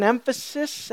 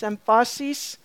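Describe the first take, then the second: First: Said in the usual way. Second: "emphasis" with stress shifted to the middle, em-FAH-sis; mis-stress "emphasis" as em-FAH-sees; "emphasis" said oddly, with an open AH in the middle; playful mispronunciation. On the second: Shown as a demonstration. Playful second pronunciation of emphasis.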